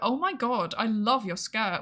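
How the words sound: It is said in a sarcastic-sounding tone. The compliment seems insincere. "It sounds sarcastic"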